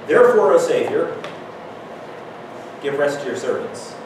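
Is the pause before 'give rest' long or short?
long. There is a long pause before 'give rest'. The speaker seems to have lost the thread. The speaker calls it wrong. "It really sounds like I lost my train there"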